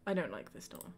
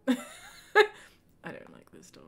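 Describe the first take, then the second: First: Said in the usual way. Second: Slow, laughing through the words; repeating her verdict through laughter. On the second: Shown as a demonstration. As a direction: giggle it out slowly.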